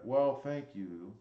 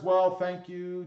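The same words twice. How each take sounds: First: Put-on slow leering old man voice; lightly voiced creepy old man. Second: Said in the usual way. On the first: Shown as a demonstration. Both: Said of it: "Just made you sound like a creepy old man".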